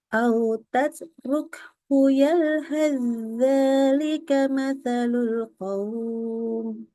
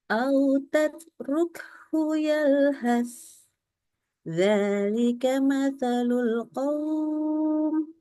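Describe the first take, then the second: First: The 'th' merges into a doubled 'dh' without pause. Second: A breathy 'th' ends, then a pause before dhalika. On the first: The reciter joins the words across the pause mark. "kalau kita menyambungkan maka ... langsung tasdid kepada zal" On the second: The reciter stops at the pause mark. "Kalau putus ya normal bacanya seperti ini"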